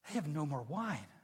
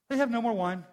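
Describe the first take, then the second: First: It is said in a worried, concerned tone. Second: It is said simply, in a plain tone. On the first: The speaker is worried about the situation. "with a lot more concern in her voice" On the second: It is just a statement of fact. "very simply"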